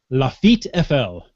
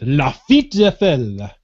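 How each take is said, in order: First: It is said in a plain, ordinary accent. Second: It is said with a put-on French accent.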